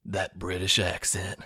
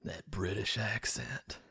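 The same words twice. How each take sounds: First: Slow, savoring mock-aroused delivery; hammed-up slow swoon over a British accent; mock turned-on husband. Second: Slow, whispered mock arousal; drawn-out, hushed swoon; mock turned-on whisper. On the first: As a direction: linger on it like a smitten husband. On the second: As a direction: whisper it like a smitten husband. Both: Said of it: "he's just so fucking turned on".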